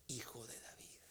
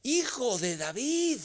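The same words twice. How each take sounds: First: Voiceless, much softer whisper of the cry. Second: Higher, louder and slow, a desperate call; loud cry. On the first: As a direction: whisper the plea instead of shouting it. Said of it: "Y grita". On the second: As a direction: cry out to Jesus over the crowd. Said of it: "y grita". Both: Acted.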